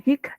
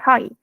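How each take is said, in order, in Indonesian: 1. Kata itu berakhir dengan bunyi k. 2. Kata itu berakhir dengan vokal terbuka. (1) "bukan hik" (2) "tapi high"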